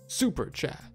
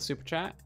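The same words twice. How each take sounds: First: It is said in a put-on anime voice. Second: It is said in a normal speaking voice.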